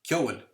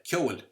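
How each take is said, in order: Both takes have the same delivery.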